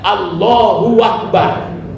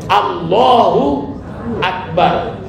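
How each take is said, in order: First: A w sound is added before akbar. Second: No w sound joins the two words. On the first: The speaker calls it wrong. "bukan Allahu akbar. Kalau Allahu akbar berarti ada huruf waw yang ditambahnya" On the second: The speaker calls it right. "jelas bacanya Allahu akbar"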